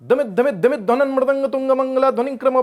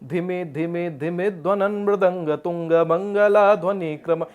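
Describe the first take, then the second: First: The opening syllables are short and crisp, drum-like. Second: The opening syllables are drawn out with long vowels. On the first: The speaker calls it right. "ऐसा लगना है डमरू बज रहा है" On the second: The speaker calls it wrong. "कितने बार प्लुत आ गया"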